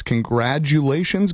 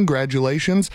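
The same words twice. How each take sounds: First: Said in the usual way. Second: Congratulations cut down to "grad-ulations"; graduation pun. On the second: Shown as a demonstration. Host wishing graduates congratulations, punning it as "grad-ulations".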